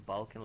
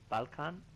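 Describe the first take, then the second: First: It is said with an English pronunciation. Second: It is said with a native Balkan pronunciation. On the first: "in English you will say Balkan like it is pronounced" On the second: "Actually, you pronounce it Balkan"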